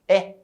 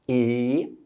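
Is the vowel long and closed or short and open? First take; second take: short open; long closed. First: The vowel is short, open and brighter. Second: The vowel is long, closed and lower. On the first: "mais curtinha e mais aberta" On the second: "mais longa e mais fechada, mais grave"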